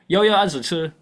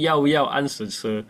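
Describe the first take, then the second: First: The sentence is spoken quickly and run together. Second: The sentence is spoken slowly and clearly.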